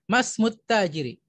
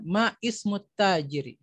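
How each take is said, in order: First: The vowel starting 'ismu' is dropped and joined. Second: The vowel starting 'ismu' is pronounced separately. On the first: The speaker calls it right. "membacanya seperti itu" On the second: The speaker calls it wrong. "kita tidak akan bertanya"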